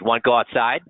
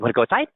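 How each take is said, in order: First: It sounds hostile, tough and confrontational. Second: It sounds upbeat, playful and excited. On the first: The speaker is challenging someone to a fight. "If I'm starting a fight" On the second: The speaker is talking affectionately to a pet. "if I was petting a dog"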